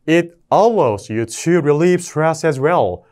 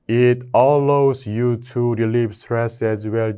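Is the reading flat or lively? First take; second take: lively; flat. First: It is read lively, with strong word stresses. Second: It is read flatly, like a machine voice. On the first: The speaker calls it right. "강세를 쫙쫙쫙 잡고 무조건 읽어주세요" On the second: The speaker calls it wrong. "이렇게 절대 에이아이처럼 읽으면 안 돼요"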